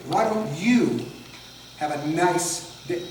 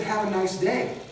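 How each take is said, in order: First: "you" and "nice" stretched and leaned on, with a gap after "you"; aggressive stress. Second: Said in the usual way. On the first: Shown as a demonstration. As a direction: make it a barbed wish by weighting "you" and "nice". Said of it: "you and the nice are aggressive". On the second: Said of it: "It's like when I said".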